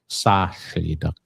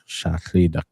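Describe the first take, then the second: First: It begins with an s sound, Southern dialect. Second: It begins with a sh sound, Northern dialect.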